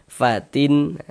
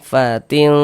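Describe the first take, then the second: First: The final n is pronounced clearly. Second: The n is hidden, nasalized and held longer. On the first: The speaker calls it wrong. "tampak kelihatan ketika kita ucapkan begitu" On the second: The speaker calls it right. "kita samarkan. Kemudian didengungkan... kita panjangkan sejenak seperti dua harakat"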